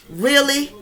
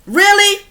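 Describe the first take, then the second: First: Moderately raised incredulous question; reproachful, less explosive challenge; contained disbelief. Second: Loud, high, incredulous question; sharply raised, scandalized challenge; outraged disbelief. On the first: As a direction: press the point with restrained indignation. Repeats the question, more contained. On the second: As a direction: burst out in indignant disbelief. Outraged at children shooting each other. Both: Real, not acted.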